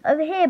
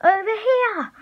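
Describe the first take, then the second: First: Mild, higher-pitched shout; first, restrained call for attention. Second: Very high, urgent attention call; shouting. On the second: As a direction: yell high to draw the chaser over. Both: A narrator's reading. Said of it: "Ben shouted".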